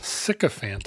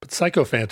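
First: The first syllable sounds like 'sick'. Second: The first syllable sounds like 'psycho'. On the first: "Sycophant is what I would say" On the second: "but sycophant is a Kenism"

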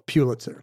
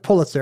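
First: The name is said differently from the family's way. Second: The name is said the way the family says it. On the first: "the way the family didn't say it" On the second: "that's the family's pronunciation"

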